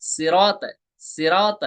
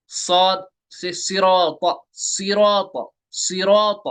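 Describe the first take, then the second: First: सिरात with a light, thin s; thin sirat. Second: सिरात with a full, heavy s; full-mouthed सिरात; heavy sirat. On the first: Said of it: "अगर हम सीन से पढ़ेंगे". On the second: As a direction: say सिरात with the thick सौद sound. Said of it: "सौद को मैंने पुर पढ़ा". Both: Shown as a demonstration.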